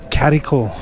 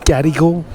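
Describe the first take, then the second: First: The word begins with a K sound. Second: The word begins with a hard G sound. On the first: The speaker calls it right. "the best way to pronounce it is Cadical. So pronounce the G as the C" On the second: The speaker calls it wrong. "I always used to always pronounce this Gadigal, like making note of the G"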